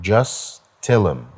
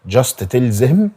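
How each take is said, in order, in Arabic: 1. حرف t بيتشال و'them' بتبقى 'em'. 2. كل كلمة بتتنطق كاملة. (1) "مش هتقول حرف التي ... بدل ما تقول them هتقول ام" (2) "بدل just تلزم"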